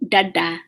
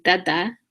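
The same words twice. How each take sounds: First: "dada" with the tongue curled back; retroflex D. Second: "dada" with the tongue forward on the teeth; dental D. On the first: Teacher showing students the underlined D, retroflex. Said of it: "I have the tongue back". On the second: Teacher showing what she is not saying, dental D. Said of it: "I'm not saying dada regular". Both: Shown as a demonstration.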